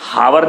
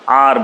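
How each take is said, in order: First: The word begins with an audible h sound. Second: The word begins directly with the vowel sound. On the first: The speaker calls it wrong. "हावर नहीं बोलते आप" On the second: The speaker calls it right. "आर बोलते हैं"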